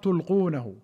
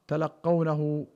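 First: It is said tulqunahu, with a silent lam. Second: It is said talaqqawnahu, with a doubled qaf. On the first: It comes from the word for casting forth. "بتاء واحدة خفيفة مرفوعة وإسكان اللام" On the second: It comes from the word for receiving. "بفتح التاء واللام وتشديد القاف"

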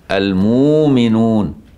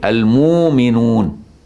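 The two takes are said the same way.

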